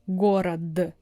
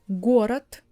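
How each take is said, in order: First: The final consonant is voiced, like d. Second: The final consonant is voiceless, like t. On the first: The speaker calls it wrong. "It's so unnatural for Russian" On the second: The speaker calls it right. "You see, I replaced all of them"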